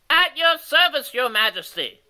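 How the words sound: It is said in a high, reedy voice.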